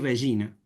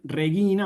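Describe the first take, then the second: First: It uses the ecclesiastical Latin pronunciation. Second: It uses the classical Latin pronunciation. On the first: "vamos a establecer una pronunciación para la liturgia" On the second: "en vez de decir Regina"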